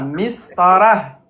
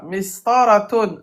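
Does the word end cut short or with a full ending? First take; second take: cut short; full ending. First: The word stops short with no final ending. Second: The word ends with a full '-tun' ending.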